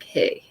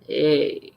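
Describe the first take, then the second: First: It sounds smooth and confident. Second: It sounds slow and awkward.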